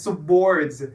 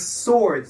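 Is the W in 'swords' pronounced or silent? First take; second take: pronounced; silent. First: The W sound is pronounced after the S. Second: The W is silent, giving a plain S start. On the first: The speaker calls it wrong. "No one uses the W. No one says swords" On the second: The speaker calls it right. "It's swords. The W is silent"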